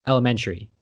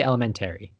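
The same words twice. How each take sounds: First: "elementary" ending in "tree"; usual pronunciation. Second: "elementary" ending in "terry"; upstate pronunciation. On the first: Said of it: "We don't say". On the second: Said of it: "I say elementary". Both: Shown as a demonstration.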